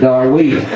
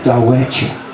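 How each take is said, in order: First: The name is said the Oklahoma way. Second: The name is said the Choctaw way. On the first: "them Oklahoma hillbillies turned it into Darweta" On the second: "the Choctaw pronounce it Dawetcha"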